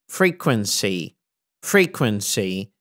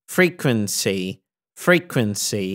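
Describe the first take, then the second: The two takes are said the same way.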